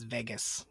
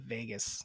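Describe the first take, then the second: First: The first vowel sounds like 'egg'. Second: The first vowel sounds like 'ay'. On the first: The speaker calls it wrong. "She says Vegas weird / She goes Veg" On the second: The speaker calls it right. "like everyone else / Everyone else goes vague"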